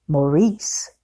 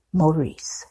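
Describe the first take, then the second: First: "Maurice" with a rising, asking tune; questioning tone. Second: "Maurice" with a falling, settled tune; confirming tone. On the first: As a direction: ask "Maurice" as if checking the name. One character asks, other confirms. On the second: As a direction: confirm "Maurice" softly, letting it drop. Confirms the name after yes. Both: Acted.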